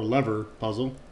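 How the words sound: Lever is said with an American pronunciation.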